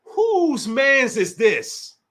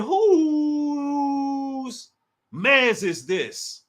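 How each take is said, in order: First: Very slow, every word stretched; slow, puzzled question; slow drawn-out ask. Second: "Whose" held long and much higher, then "mans is this" slow; squealed, stretched-out question. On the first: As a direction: draw out "Whose mans is this?" slowly. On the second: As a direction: hold "Whose" up high, then drop. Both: Shown as a demonstration. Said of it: "I said".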